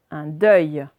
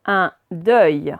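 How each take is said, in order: First: Said in the usual way. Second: "Un deuil" as two separate, louder words; syllable by syllable. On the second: Shown as a demonstration. Teacher reading words aloud to pupils, syllable by syllable. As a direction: sound out "Un deuil" firmly, word by word. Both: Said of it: "on va faire les deux d'un coup".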